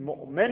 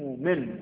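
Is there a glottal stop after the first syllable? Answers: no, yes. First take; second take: yes; no. First: A glottal stop follows the first syllable. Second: A long vowel replaces the glottal stop. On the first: "هم میتونید بگید مؤمن" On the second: "هم میتونید بگید مؤمن"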